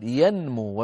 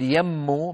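First: ينمو as yan-moo with the N sounded; clear unmerged noon. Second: يمو as yam-moo, doubled M without N; wrongly merged noon. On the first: Teacher corrects the verb, showing the N in ينمو. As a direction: articulate the N before M in ينمو. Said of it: "بل نقول ينمو ونظهر النون". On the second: Teacher shows what not to say, يمو with long M. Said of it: "لا نقول". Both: Shown as a demonstration.

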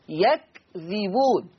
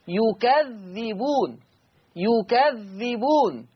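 First: Very slow "يكذبون" with fatha on ya, sukun on kaf, light dhal; Hafs reading yakdhibun. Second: Very slow "يكذبون" with damma on ya, fatha on kaf and a doubled dhal; Warsh reading yukadhdhibun. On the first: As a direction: spell out "يكذبون" slowly as yak-dhi-bun. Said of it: "حفص يقرأ بفتح الياء وسكون الكاف وكسر الذال". (قراءة حفص "يكذبون" بسكون الكاف وذال خفيفة ببطء) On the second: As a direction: recite "يكذبون" slowly as yu-kadh-dhi-bun, lean on the double dhal. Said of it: "كسر الذال مع التشديد". (قراءة ورش "يكذبون" بضم الياء وتشديد الذال ببطء)

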